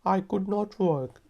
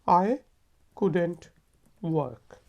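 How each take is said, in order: First: Could and not are said as two full words. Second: Could and not merge into one contracted word. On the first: "मेरे साथ बोलें" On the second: "आमतौर पे हम इसको इस तरह लिखते और बोलते हैं"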